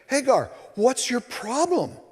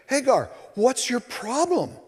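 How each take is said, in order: First: It is said with a sharp edge. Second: It is said with a sharp edge.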